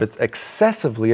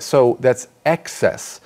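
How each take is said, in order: First: Ex-CESS-ive-ly, second syllable stressed. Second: EX-cess, first syllable punched, said slowly; teacher stresses excess on the front. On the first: Contrasting with the noun, stress CESS in excessively. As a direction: put the weight on CESS in excessively. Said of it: "it's on the second syllable". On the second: Explaining word stress to students, hits EX in excess. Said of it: "the emphasis for the noun is on the first syllable". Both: Shown as a demonstration.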